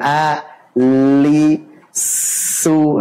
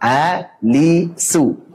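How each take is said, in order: First: The syllables take different amounts of time. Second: All three syllables take the same time. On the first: The speaker calls it wrong. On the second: The speaker calls it right.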